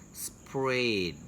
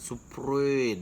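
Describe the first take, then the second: First: The lips are only slightly rounded on the R. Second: The lips are strongly pushed out on the R. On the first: The speaker calls it right. "Jadi seperti akan mencucu" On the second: The speaker calls it wrong. "tapi tidak mencucu seperti uh nggak sprayed, nggak gitu ya"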